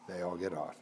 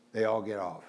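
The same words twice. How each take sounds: First: Repeated much softer and lower; hushed, lower insistence; quiet emphatic repeat. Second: Said in the usual way. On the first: Shown as a demonstration. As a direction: drop it right down to drive it home.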